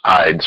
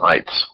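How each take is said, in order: First: Ides said as "eyedz", voiced d and z; ides, clearly voiced at the end; contrasted "ides" ending. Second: Ites said as "ights", crisp t and s; ites, voiceless ts at the end; contrasted "ites" ending. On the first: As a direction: lean on ides with a long vowel and buzzing end. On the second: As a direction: clip ites short on a sharp ts. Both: Shown as a demonstration. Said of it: "So differentiate".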